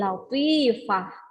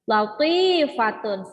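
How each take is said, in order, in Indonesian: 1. Kata ini berakhir dengan bunyi 'h' yang lembut. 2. Kata ini berakhir dengan akhiran '-tun' penuh.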